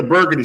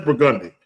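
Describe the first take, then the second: First: "Burgundy" as BUR-guh-nee; front-stressed "Burgundy", BUR-guh-nee; standard pronunciation. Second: "Burgundy" as bur-GUN-dee; local pronunciation. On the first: Visitor asking for the street, "Burgundy" as BUR-guh-nee. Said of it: "streets down here we mispronounce". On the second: Local correcting a lost visitor, "Burgundy" as bur-GUN-dee. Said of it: "That's what they gonna fucking tell you". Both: Acted.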